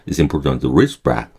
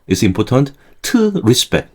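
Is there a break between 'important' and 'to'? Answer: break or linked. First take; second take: linked; break. First: 'Important' and 'to' run together without a break. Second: There is a break after 'important' before 'to'. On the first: The speaker calls it right. "important 다음에 t까지 한 단어인 것처럼" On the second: The speaker calls it wrong. "그 다음에 틀을 따로 해요"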